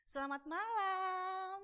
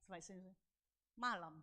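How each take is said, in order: First: High, very slow "Selamat malam"; drawn-out sing-song good evening; forced cheery greeting. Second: Low, soft, clipped "Selamat malam"; imitating an unenthusiastic good evening; retold cool reply. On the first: Retold or imitated. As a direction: sing out "malam" on a long held note. Forced greeting to the avoided person. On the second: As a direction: mumble the greeting back with no interest. The other's cold reply, acted.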